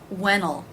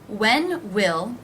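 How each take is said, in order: First: It is contracted with a reduced will. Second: Both words are said in full.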